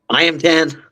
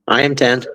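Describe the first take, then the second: First: It is said with enthusiasm and energy. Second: It is said plainly, without enthusiasm.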